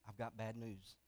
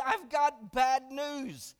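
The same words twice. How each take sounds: First: Lower, much softer grave delivery; somber husband. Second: Slow, drawn-out tearful confession; a touch of weeping, slowed right down; tearful wife. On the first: Husband breaking sad news to wife, low and soft. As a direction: hush it down like bad news. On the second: Wife crying to her husband, slow and mildly tearful. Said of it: "She's, she's crying uncontrollably". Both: Retold or imitated.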